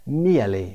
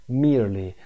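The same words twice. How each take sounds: First: "Merely" as MEE-uh-lee with no r; British pronunciation. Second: "Merely" as MEER-lee, r sounded; American pronunciation. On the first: Teacher repeats the British form, "Merely" as MEE-uh-lee. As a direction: say "Merely" with a British gliding vowel, r silent. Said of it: "بریتیشش merely". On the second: Teacher repeats the word for learners, "Merely" as American MEER-lee. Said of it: "تلفظ merely". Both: Shown as a demonstration.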